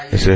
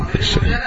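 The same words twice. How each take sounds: First: Said in the usual way. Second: Jumps way up high and soft; softer, much higher take; high squeak. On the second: Shown as a demonstration.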